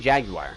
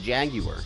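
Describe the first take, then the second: First: The ending has an 'eye' sound. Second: The ending has no 'eye' sound. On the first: "like we say jaguar ... we sound it as if there's an I in the word" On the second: "Maybe it truly is a jaguar"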